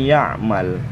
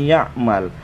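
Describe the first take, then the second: Both takes have the same delivery.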